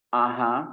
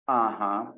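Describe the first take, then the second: No difference in how they are said.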